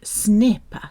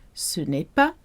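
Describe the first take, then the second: First: It is said very fast and blurred. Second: It is said at normal conversational speed.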